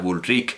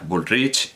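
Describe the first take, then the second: First: The name is pronounced with Catalan sounds. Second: The name is pronounced with plain Spanish sounds. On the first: "dudaba si pronunciarlo a la catalana" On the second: "todo el mundo decía Bullrich y todo el mundo pronunciaba las cosas como suenan"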